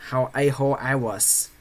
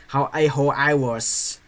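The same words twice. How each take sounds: The two takes are said the same way.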